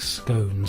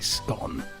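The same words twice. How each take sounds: First: The vowel rhymes with cone. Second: The vowel rhymes with gone. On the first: It sounds pretentious to the speaker. "I think scone sounds extremely pretentious" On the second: This is the speaker's own usage. "personally, I say scone"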